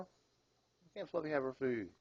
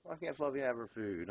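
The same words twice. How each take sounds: First: "Why can't Fluffy have her food?" drawn out slowly, pitched higher, leaning on "have"; slow emphatic question. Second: Said in the usual way. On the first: Real, not acted. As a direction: stretch "have" in a slow, pleading ask. Repeats question slower, higher.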